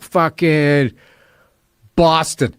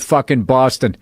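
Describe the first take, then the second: First: Put-on halting drunk answer with a long pause; mock wasted. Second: Slow, deadpan official recital of a curse; bailiff reading. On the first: Drunk driver telling police where he's from, groggy and halting. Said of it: "I was fucking wasted". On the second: Retold or imitated. Bailiff quoting the drunk defendant in court, deadpan. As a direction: read the swearing like a court record. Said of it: "That's not the way I said it".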